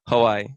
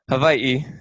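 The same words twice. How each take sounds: First: It is pronounced the common English way. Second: It is pronounced the native Hawaiian way. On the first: This is how most outsiders say the name. "or as most people know" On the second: This is how locals say the name. "as we pronounce it in Hawaiian"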